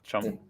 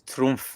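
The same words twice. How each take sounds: First: The name is pronounced with English sounds. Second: The name is pronounced with German sounds. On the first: This is the changed, adopted form of the name. "they've turned it into Trump" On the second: This is the original form of the name. "the name comes from Germany and it's Trump"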